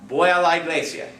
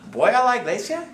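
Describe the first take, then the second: First: The voice falls at the end, a statement. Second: The voice rises at the end, a question.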